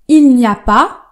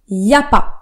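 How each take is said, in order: First: The negative 'ne' sound is clearly pronounced. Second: The negative 'ne' sound is left out. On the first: This is the careful standard form. "au lieu de dire il n'y a pas" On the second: This is the casual spoken form. "on va dire il y a pas"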